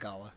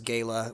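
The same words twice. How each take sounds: First: The word is said the non-Texas way. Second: The word is said the Texas way. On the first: The speaker calls it right. "It's gala" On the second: The speaker calls it wrong. "or if you're from Texas, gala, which is incorrect"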